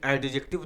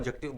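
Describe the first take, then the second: First: The d sound is clearly pronounced. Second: The d sound is left silent. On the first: The speaker calls it wrong. "एडजेक्टिव नहीं बोला जाता" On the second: The speaker calls it right. "डी को silent करिएगा"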